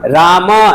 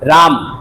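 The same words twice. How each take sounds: First: The word ends with a short final vowel. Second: The word ends on a bare consonant. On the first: This is the Sanskrit way of the sages. "ऋषि पद्धति में आप उच्चारण करते" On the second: This is the everyday human way. "मनुष्यों की भाषा में ... जब बोलते हैं तो हलंत बोल देते हैं"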